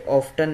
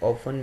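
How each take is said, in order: First: The t sound is pronounced in the middle. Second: The t sound is silent in the middle. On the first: The speaker calls it wrong. "ये ऑफ्टन नहीं है" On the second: The speaker calls it right. "टी इसमें silent है"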